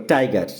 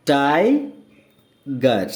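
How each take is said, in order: First: Said in the usual way. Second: tiger extremely slow, in two separate parts; drawn-out rising "tai", long pause, falling "gar" in tiger; broken into syllables. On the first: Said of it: "ডাইসিলেবল বলে". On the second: Shown as a demonstration. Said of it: "দেখো এখানে ব্র্যাকেটে দেওয়া হয়েছে".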